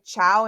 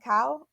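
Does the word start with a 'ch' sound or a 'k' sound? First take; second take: ch; k. First: The word starts with a soft 'ch' sound. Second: The word starts with a hard 'k' sound. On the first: The speaker calls it wrong. "I pronounced it Lai Chow" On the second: The speaker calls it right. "like with a hard C maybe"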